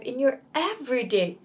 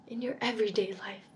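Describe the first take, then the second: First: Said in the usual way. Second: Soft breathy echo of the invitation; "in your everyday life" whispered after the spoken line. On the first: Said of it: "My invitation today to you is". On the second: Shown as a demonstration.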